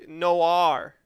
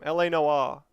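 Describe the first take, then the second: First: "Noir" in an attempted American accent. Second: "Noire" said the Australian way; Australian accent. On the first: Gamer showing his most American Noir, American accent. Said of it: "about as American as it can get". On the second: Gamer insisting on saying it his own way, Australian accent. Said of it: "you gotta say it the Australian way". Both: Shown as a demonstration.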